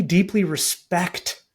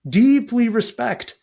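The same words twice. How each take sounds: First: "deeply respect" said slowly, weight on "deeply"; first slow stress. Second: "deeply" punched higher and louder, slow; emphatic repeat. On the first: To listeners about respecting opponents, slow stressed "deeply". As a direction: lean on "deeply" gently, drawn out. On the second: Repeating respect for people he disagrees with, punched "deeply". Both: Shown as a demonstration.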